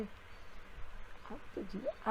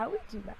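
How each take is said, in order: First: Breathy slow whisper of the moral. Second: Said in the usual way. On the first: Shown as a demonstration. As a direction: whisper it slowly, like a secret. Preacher repeats the moral line. (ધીમેથી ફૂસફૂસ કરીને)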